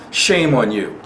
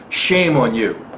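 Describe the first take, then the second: No difference in how they are said.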